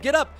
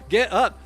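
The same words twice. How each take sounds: First: It is read in his ordinary speaking voice. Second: It is read in an imitated character voice.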